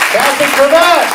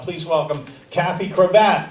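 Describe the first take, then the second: First: Name boomed out loud and higher; stage announcer. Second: Said in the usual way. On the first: Acted. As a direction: call the name to the room like an emcee. Host calling comics to stage.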